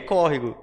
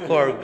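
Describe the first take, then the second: First: The word is said in full with three syllables. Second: The word is shortened to two syllables. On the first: This is the standard form. The speaker calls it right. "é córrego" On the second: This is the regional everyday form. The speaker calls it wrong. "Vocês falam corgo"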